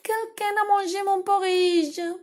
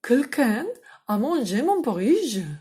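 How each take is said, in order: First: It is said in a small, babyish voice. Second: It is said in a medium, ordinary voice.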